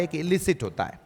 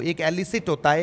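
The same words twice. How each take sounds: First: इलिसिट opening on a short "i"; "i" first vowel. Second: एलिसिट opening on "eh"; open first vowel. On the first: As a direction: say इलिसिट as "ih-li-sit". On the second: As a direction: say एलिसिट as "eh-li-sit". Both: Shown as a demonstration. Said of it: "अब इधर देखो".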